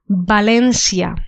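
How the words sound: It is said with a Latin American Spanish pronunciation. "the second one is a pronunciation for Latin America and some places in Spain"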